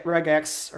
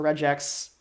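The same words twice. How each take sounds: First: "regex" with a hard g as in "get". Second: "regex" with a soft g, like "rejex". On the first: Speaker offers one pronunciation of a programming term, "regex" with hard g. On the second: Speaker offers the other pronunciation of a programming term, "regex" with soft g. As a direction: say "regex" as REJ-ex, with a j sound. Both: Shown as a demonstration. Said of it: "programming terms are hard to pronounce".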